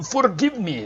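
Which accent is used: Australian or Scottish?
Scottish. It is said in a Scottish accent. The speaker calls it right. "Gotta get that Scottish accent going. There we go"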